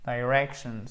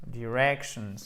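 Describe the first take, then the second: First: "Directions" with a short i, stress on -rec-. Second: "directions" with the stress on -rec-; stress on the second syllable. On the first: Teacher showing the class "Directions", short i, stress on second syllable. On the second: Teacher repeating "directions" for students, stress on the second syllable. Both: Shown as a demonstration. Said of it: "avec le stress qui est hi-, ici".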